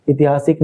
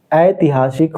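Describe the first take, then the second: First: ऐतिहासिक said with a short i at the start, itihasik; wrong form again. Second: ऐतिहासिक said aitihasik, with a clear ai at the start; correct form. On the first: Teacher warning pupils, the wrong form: ऐतिहासिक said as itihasik. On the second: Teacher answering his own question, the correct form: ऐतिहासिक said as aitihasik. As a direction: give ऐतिहासिक an open ai, aitihasik. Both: Shown as a demonstration. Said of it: "क्या होता है बताइए".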